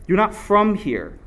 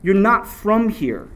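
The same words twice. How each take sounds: The two takes are said the same way.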